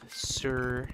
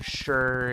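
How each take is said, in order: First: The word begins with a plain s sound. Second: The word begins with a sh sound. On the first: "instead of" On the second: "palatalization hits my dialect"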